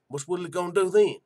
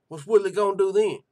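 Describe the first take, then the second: First: Said in the usual way. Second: Louder challenge. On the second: Real, not acted. Host pressing chat about Woodley, louder demanding repeat. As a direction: raise the Italian-free challenge higher and louder on Woodley.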